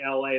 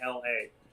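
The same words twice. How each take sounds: First: The letters are said quickly, run together. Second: The letters are said slowly, drawn apart. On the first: This is how Americans say it. "They can't just say it fast like we can" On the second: This is how British people say it. "they have to say L A"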